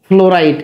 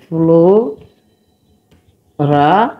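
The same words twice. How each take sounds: First: Said in the usual way. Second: ফ্লোরাইড stretched very slowly, rising at the end; drawn-out correction. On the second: Shown as a demonstration. Teacher correcting chlorine to fluoride, slowly drawn out. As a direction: spell out ফ্লোরাইড sound by sound. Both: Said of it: "এটা ক্লোরিন না ফ্লোরাইড?".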